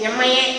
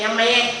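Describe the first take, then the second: No difference in how they are said.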